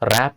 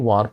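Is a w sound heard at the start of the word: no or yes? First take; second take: no; yes. First: The word starts with an r sound, no w. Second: The word starts with a sounded w. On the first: The speaker calls it right. "ర్యాప్ అండి" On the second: The speaker calls it wrong. "వార్ప్ కాదు"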